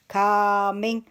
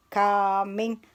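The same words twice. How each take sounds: The two takes are said the same way.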